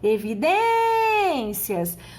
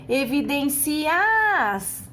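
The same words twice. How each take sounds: First: The final i and a are merged into one syllable. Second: The final i and a are split into syllables. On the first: The speaker calls it right. "nós falamos evidências" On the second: The speaker calls it wrong. "se você separasse desta forma, você pronunciaria evidências"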